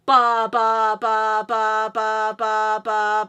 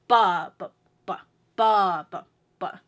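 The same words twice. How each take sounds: First: Every "ba" equally loud and long; monotone, unaccented loud BA-BA-BA; same emphasis throughout. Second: "ba" in threes, first long and strong; waltz-like chant, two weak "ba"s after a big one; BA-ba-ba, leaning on one; strong downbeat. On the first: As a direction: hammer out identical "ba" beats on one pitch. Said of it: "same emphasis on all three". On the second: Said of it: "have the most emphasis to it". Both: Shown as a demonstration.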